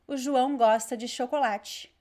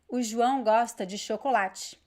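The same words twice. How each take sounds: No difference in how they are said.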